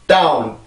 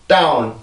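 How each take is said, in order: The two takes are said the same way.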